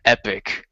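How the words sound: It is pronounced the American way. "Epic is the U S pronunci- U- English pronunciation"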